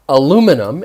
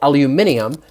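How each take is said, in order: First: It has four syllables, stressed on the second. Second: It has five syllables, stressed on the third. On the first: "in the U S" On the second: "in the rest of the world"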